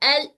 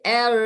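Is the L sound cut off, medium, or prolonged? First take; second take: cut off; prolonged. First: The L sound is stopped off abruptly. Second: The L sound is held on for long. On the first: "रोकना भी नहीं है" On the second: "मैं एक जारी करके दिखाती हूँ"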